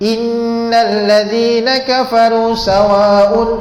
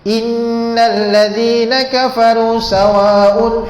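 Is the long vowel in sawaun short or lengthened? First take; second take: short; short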